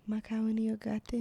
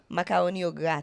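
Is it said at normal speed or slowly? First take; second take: slowly; normal speed. First: It is said slowly and drawn out. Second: It is said at normal speed.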